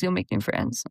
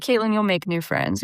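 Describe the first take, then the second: First: A lower, softer mocking repeat of the friends; low, quiet imitation of friends saying you'll make new friends; mock low echo. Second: Said in the usual way. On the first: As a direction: mumble it back like a tired cliché. Friends reassuring her about moving.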